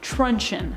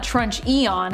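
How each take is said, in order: First: The word ends in a short 'chun' sound. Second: The word ends in a separate 'ee-on' sound. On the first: The speaker calls it right. "I think I'm saying that right too" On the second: The speaker calls it wrong. "It's not Trunch Eon, is it? Probably not"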